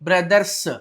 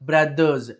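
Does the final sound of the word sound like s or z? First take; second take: s; z. First: The word ends with an s sound. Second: The word ends with a z sound. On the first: The speaker calls it wrong. "ఇలా చదవకూడదు" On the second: The speaker calls it right.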